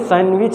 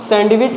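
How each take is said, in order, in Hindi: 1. d की आवाज़ silent है या बहुत मुश्किल से सुनाई देती है। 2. d की आवाज़ साफ़ बोली जाती है।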